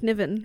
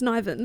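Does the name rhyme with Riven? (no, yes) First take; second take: yes; no. First: The name rhymes with Riven. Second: The name does not rhyme with Riven. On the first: The speaker calls it wrong. "switch the R and the N, like Niven" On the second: The speaker calls it right. "but then it's Niven"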